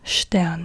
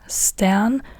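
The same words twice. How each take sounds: First: It begins with a sht sound. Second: It begins with a plain st sound. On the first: The speaker calls it right. "it turns into an S C H sound if it's in front of a T" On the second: The speaker calls it wrong. "Not like in star, not st"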